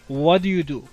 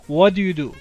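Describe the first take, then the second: First: The words are said quickly and run together. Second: The words are said quickly and run together.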